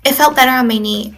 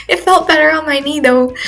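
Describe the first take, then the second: First: Said in the usual way. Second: Higher, repeated through a laugh; amused self-mocking retake. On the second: Real, not acted. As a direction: laugh at yourself as you say it again. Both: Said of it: "I feel so old saying that".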